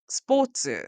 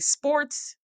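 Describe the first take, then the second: First: It is said with a Japanese pronunciation. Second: It is said with an American English pronunciation. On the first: "you have to pronounce it in that way" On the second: "if you want to say sports"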